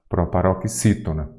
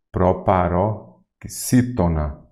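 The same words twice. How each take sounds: First: Said in the usual way. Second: Proparoxítona slowly in separated chunks; slow teacher's breakdown of "Proparoxítona"; syllable by syllable. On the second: Shown as a demonstration. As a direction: sound out "Proparoxítona" slowly, pausing after "paró".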